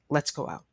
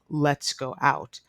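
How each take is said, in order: First: The words run together with no break. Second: Each word is said separately with small breaks. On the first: "the T sound connects to the O sound" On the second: "instead of"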